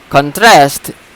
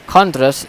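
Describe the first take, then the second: First: The stress is on the second syllable. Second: The stress is on the first syllable. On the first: It is used as a verb. "contrast is a verb" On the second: It is used as a noun. "contrast is a noun"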